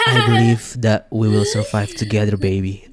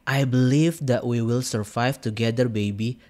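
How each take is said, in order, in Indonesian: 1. Dibaca dengan suara penyiar radio yang dibuat-buat. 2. Dibaca dengan suara biasa dan wajar.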